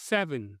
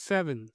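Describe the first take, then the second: Both takes have the same delivery.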